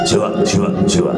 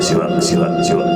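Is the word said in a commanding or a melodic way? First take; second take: commanding; commanding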